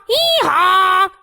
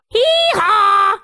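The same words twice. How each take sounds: First: Donkey bray. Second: Said in the usual way. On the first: Pretend. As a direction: bray hee-haw like a cartoon donkey. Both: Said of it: "makes the sound hee-haw".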